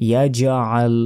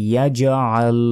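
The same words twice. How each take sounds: No difference in how they are said.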